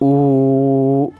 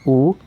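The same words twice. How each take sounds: First: The vowel is held about three times longer. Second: The vowel is held only briefly. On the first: "तीन गुना समय लेना पड़ता है" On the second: "ह्रस्व स्वर"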